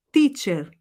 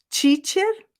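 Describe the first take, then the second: First: Teacher with a pure T, "tee"; correct teacher. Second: Teacher with a "tchee" start, like Brazilian tia; wrong teacher. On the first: Teacher shown to students as the right version, with a pure T. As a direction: say teacher with a clean T, as in teu. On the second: Teacher shown to students as the wrong version, with "tchee". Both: Shown as a demonstration. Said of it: "Você consegue ouvir a diferença?".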